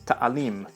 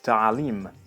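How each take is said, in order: First: The middle consonant is a simple glottal stop. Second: The middle consonant is a throaty ayn. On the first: "becomes a simple glottal stop" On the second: "the ayn sound from Arabic"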